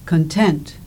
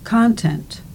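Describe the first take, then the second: First: The stress is on the second syllable. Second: The stress is on the first syllable. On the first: "The second words in the pairs have their stress on the second syllable" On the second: "The first words in the pairs have their stress on the first syllable"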